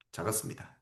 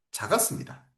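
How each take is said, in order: First: 작았습니다 repeated as a soft unvoiced whisper; whispered echo. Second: Said in the usual way. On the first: Shown as a demonstration. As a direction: breathe the word 작았습니다 again as an aside. Teacher echoes word softly.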